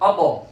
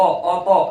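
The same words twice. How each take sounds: First: The final t ends in a quick, short bounce. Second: The final t is followed by a full vowel. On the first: The speaker calls it right. "फौरन टकरा कर आवाज वापस आनी" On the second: The speaker calls it wrong. "ऐसा भी कलकला नहीं करना कि उसके ऊपर जबर लग जाए"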